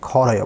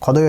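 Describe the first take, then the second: First: The middle consonant is an r sound. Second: The middle consonant is a d sound. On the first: The speaker calls it right. "खोरोयो बोलेंगे" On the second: The speaker calls it wrong. "खोदोयो नहीं बोलेंगे"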